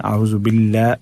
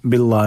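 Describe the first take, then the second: First: बिल्ला with a light, thin ल and front a; thin Allah. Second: बिल्ला with a heavy, dark ला; wrongly thick Allah. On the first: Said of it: "अल्लाह को बारीक पढ़ना है". (बिल्ला का लाम बारीक) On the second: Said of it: "बिल्ला नहीं पढ़ना है". (बिल्ला का लाम मोटा) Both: Shown as a demonstration.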